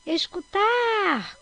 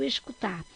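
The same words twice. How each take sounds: First: Escutar called out, final TAR long, high and loud; stress on TAR. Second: Said in the usual way. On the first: Shown as a demonstration. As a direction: stretch and lift the TAR in "escutar". (escutar com o TAR alongado, agudo e forte) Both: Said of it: "Qual é a sílaba mais forte?".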